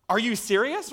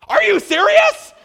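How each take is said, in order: First: Imitated mom's raised-pitch question; incredulous but not yet shouting; mild disbelief. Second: Very high, loud, drawn-out disbelief; hammed-up incredulous shout; beside herself. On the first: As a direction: ask it higher, in mild retold disbelief. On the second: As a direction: shriek the question like an overwhelmed mom. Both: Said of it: "She was just beside herself".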